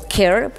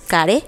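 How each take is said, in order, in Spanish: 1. La sigla se lee con pronunciación inglesa. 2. La sigla se lee con pronunciación española. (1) "como podría ser en inglés" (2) "que por sus siglas es CARE"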